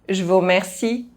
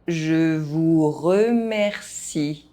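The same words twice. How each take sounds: First: The phrase is spoken fast. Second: The phrase is spoken at normal pace. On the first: This is how native speakers say it. "fast, as a native speaker would do" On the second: This is the recommended way for learners to say it. "at a normal pace"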